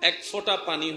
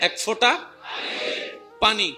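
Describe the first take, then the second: First: The phrase is said at normal volume. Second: The phrase is said more loudly.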